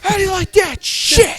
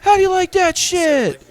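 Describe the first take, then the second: First: The line sounds hostile and angry. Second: The line sounds light and friendly. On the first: It attacks the crowd as if they offended him. "It was like he was mad at you" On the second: It is a playful jab at the crowd. "you know it's all in the tone"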